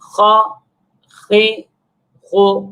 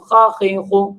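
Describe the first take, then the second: First: The syllables are read calmly, each one separate. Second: The syllables are read quickly and run together. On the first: The speaker calls it right. "आराम से इत्मीनान से हर हरफ को अलग-अलग करके पढ़ेंगे" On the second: The speaker calls it wrong. "बहुत ज़्यादा जल्दी नहीं करेंगे। जैसे बाज़ बच्चे पढ़ लेते हैं"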